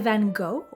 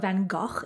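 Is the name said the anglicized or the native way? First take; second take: anglicized; native. First: The name is said the familiar English way. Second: The name is said the native Dutch way. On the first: The speaker calls it wrong. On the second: The speaker calls it right.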